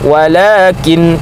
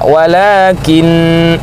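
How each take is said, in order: First: The final nasal hum is short. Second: The final nasal hum is held long. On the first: The final n has no doubling. The speaker calls it wrong. "Kalau walakin berarti nunnya sukun" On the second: The final n is doubled. The speaker calls it right. "maka lamakan dengungnya"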